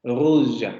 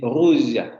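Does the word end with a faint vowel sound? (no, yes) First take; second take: yes; yes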